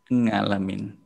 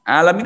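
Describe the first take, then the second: First: The word starts with a nasal 'ng' sound. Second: The word starts with a throaty vowel sound.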